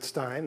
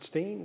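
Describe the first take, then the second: First: The vowel sounds like the one in 'line'. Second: The vowel sounds like the one in 'seen'. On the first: This is the family's own way. "my father pronounces it Stein. That's how I pronounce it" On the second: Some relatives say it this way. "I actually have relatives who pronounce it Steen"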